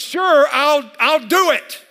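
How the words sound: The voice sounds angry and sharp. The speaker is mad about the task. "I'm mad about this picture"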